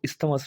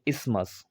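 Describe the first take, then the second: First: A 'th' sound is pronounced after the 's'. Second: No 'th' sound is pronounced after the 's'. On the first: The speaker calls it wrong. "पर इसको इस्थमस नहीं पढ़ेंगे" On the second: The speaker calls it right. "टी एच है जो वो silent ही पढ़ा जाएगा"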